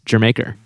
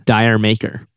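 First: The first part sounds like 'jer'. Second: The first part sounds like 'dire'. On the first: The speaker calls it right. "It's Jermaker" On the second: The speaker calls it wrong. "a lot of people mispronounce Dire Maker"

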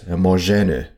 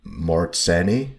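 First: The rz is read with its Polish sound. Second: The rz is read without its Polish sound. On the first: "since I'm in Poland, it has this RZ combination. Therefore, I would pronounce this just shamelessly as" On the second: "maybe it's meant to be pronounced as"

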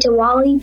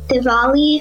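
First: The second consonant is a w sound. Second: The second consonant is a v sound. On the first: "a lot of people say Diwali because it's spelled like that" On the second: "the W actually is like pronounced as a V"

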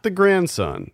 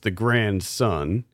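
First: Grandson is said as one joined word. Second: Grand and son are said as separate words. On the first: It names a child's son. The speaker calls it wrong. "Not The Grandson" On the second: It is a play on words. The speaker calls it right. "because this is two separate words, so it's The Grandson"

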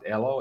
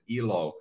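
First: The name begins with an 'eh' vowel. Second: The name begins with an 'ee' vowel. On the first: It means life. "if we pronounce it Elo, it means life in Finnish" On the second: It means happiness. "if you pronounce it Ilo, as some people might, it means happiness"

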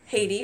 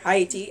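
First: It is said with a usual English pronunciation. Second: It is said with the local French-style pronunciation.

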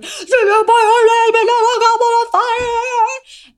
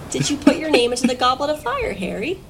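First: The question is asked in an angry voice. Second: The question is asked in a calm voice.

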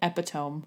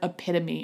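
First: It is said with three syllables, ending like 'tome'. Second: It is said with four syllables, ending in 'tuh-mee'. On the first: The speaker calls it wrong. "I'm just mispronouncing the word epitome and I'm saying epitome" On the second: The speaker calls it right. "the word epitome"

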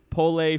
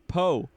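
First: The name ends with an L sound. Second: The name ends in a plain vowel. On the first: The speaker calls it wrong. "Is that how you say it?" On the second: The speaker calls it right. "It's Poe"

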